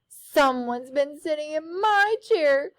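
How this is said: It is said in a high crying voice.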